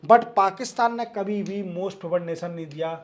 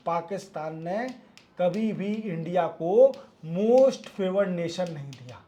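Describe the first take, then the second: First: Said in the usual way. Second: Each phrase slowed and spaced; slow emphatic repeat. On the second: Shown as a demonstration. Teacher to students repeating the point slowly. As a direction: spell it out slowly so it sinks in. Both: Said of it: "repeats it slowly for emphasis".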